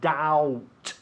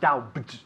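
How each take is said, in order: First: The word is said with no b sound. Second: The word is said with a b sound. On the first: The speaker calls it right. "We don't pronounce la B. It's doubt" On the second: The speaker calls it wrong. "not doubt"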